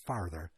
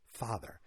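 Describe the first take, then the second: First: "father" said as "farther"; the slip "father" with a clear r before the th; r slipped into father. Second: "father" corrected to FAH-ther; a quieter, corrected "father", open ah and no r; father without the r. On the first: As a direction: put an r in "father", like FAR-ther. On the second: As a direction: say "father" with no r before the th. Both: Shown as a demonstration. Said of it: "Not, not father".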